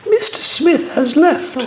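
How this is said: It is said in a put-on girl's voice.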